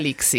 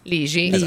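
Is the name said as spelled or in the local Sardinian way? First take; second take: as spelled; Sardinian. First: The name is read the way it is spelled. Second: The name has the local Sardinian pronunciation. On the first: "Io continuerò a chiamarti Luca Lixi" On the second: "Ligi, ecco qua, insomma, in cagliaritano"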